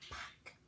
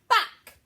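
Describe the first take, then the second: First: The word is whispered very quietly. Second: The word is shouted very loudly. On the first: "Let's whisper it" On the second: "And let's shout it"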